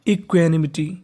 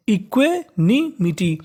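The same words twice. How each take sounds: First: इक्वेनिमिटी run together as one word; इक्वेनिमिटी joined up, at an ordinary pace; read together. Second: इक्वेनिमिटी slowly, part by part; teacher slowly splitting इक्वेनिमिटी into pieces; broken into parts. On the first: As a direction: say इक्वेनिमिटी whole, with no gaps. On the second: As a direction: sound out इक्वेनिमिटी with gaps between the parts. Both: Shown as a demonstration. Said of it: "अब इसको एक साथ पढ़ते हैं".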